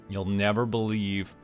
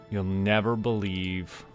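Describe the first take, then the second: No difference in how they are said.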